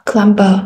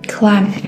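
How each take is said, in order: First: A B sound is pronounced at the end. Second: The word ends on M with no B. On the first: The speaker calls it wrong. "you don't pronounce it climber" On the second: The speaker calls it right. "but just climb"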